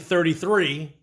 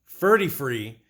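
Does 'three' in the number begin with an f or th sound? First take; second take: th; f. First: The word three begins with a th sound. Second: The word three begins with an f sound. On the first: "instead of saying thirty-three" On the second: "he'll always say thirty-free"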